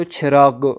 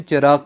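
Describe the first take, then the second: First: چراغ with aspirated ch and e, like "chheragh"; Persian pronunciation. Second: چراغ with a plain unaspirated ch; Urdu pronunciation. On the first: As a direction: puff air on the first sound of چراغ. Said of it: "چراغ کو چھ سے پڑھیں گے". (چراغ فارسی تلفظ میں، چھ کی آواز سے) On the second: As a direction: say چراغ the Urdu way, no puff after ch. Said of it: "Urdu میں چراغ پڑھتے ہیں". (چراغ اردو تلفظ میں، بغیر ہوا کی چ) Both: Shown as a demonstration.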